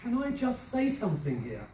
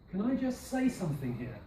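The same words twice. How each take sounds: First: "say" stressed, a touch higher. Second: Said in the usual way. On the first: Shown as a demonstration. Teacher modelling a stressed phrase. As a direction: lean on "say". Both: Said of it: "mark the next one".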